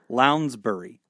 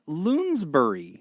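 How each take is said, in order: First: The first vowel sounds like 'ow'. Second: The first vowel sounds like 'oo'. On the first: The speaker calls it right. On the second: The speaker calls it wrong.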